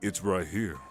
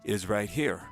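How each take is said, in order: First: The voice is placed and resonates in the stomach. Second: The voice is placed and resonates in the throat. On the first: "if you talk with your stomach" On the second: "if you talk with your throat"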